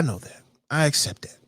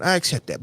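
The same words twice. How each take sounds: First: Softer, whispered admission. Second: Said in the usual way. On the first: Real, not acted. Admitting his weight to himself, whispered. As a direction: drop to a whisper. Quiet self-admission aside.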